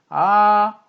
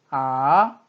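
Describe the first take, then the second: First: The pitch stays high, flat and long. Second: The pitch rises quickly from middle to high. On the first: "솔의 음높이로 평평하고 길게 이어지는 소리를 일성" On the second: "미의 음높이에서 단숨에 짧고 빠르게 솔의 음높이로 올라간다"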